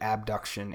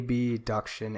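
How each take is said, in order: First: The first syllable is spoken as a normal syllable. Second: The first syllable is spoken as separate letters. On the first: "as opposed to abduction" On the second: "you say abduction and adduction as opposed to"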